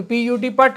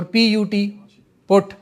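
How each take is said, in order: First: پٹ said as "putt", with the short uh vowel of "but"; hypothetical spelling-based pronunciation. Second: پٹ pronounced like English "put", not rhyming with بٹ; standard English pronunciation. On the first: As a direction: make پٹ rhyme with English بٹ. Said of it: "اگر بی U T بٹ ہے". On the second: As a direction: say پٹ with the short oo vowel of "foot". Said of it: "پٹ کیوں نہیں ہوتا". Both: Shown as a demonstration.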